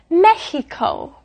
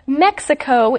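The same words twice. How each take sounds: First: The middle consonant is a breathy H sound. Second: The middle consonant is a hard KS sound. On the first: This is how it is said in Spanish. "It's Mexico with a more of an H sound" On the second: This is how it is said in English. "we say Mexico in English"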